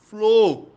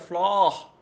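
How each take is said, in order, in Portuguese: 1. A vogal O é fechada. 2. A vogal O é aberta. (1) "esse O aí é um O fechado" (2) "Se fosse com um acento agudo, seria bem estranho"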